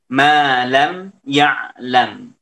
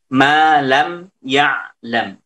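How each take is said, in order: The two takes are said the same way.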